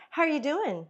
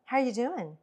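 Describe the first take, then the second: First: Higher, bright lift on How; lively tone. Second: Flat downbeat tone. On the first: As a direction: greet them with life in it. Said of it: "You see the complete difference in your tone?". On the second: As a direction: say it with no life in it. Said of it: "complete difference in your tone". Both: Shown as a demonstration.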